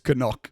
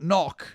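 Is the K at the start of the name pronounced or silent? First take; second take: pronounced; silent. First: The first K is pronounced, two syllables. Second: The first K is silent, one syllable. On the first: The speaker calls it right. "the correct pronunciation is Canuck" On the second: The speaker calls it wrong. "It's not knock"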